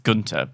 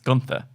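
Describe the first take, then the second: First: The middle consonant is a plain hard T. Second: The middle consonant is a soft TH sound. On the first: The speaker calls it right. "I know that's not correct. It's Gunter" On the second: The speaker calls it wrong. "I can't help but pronounce it Gunther"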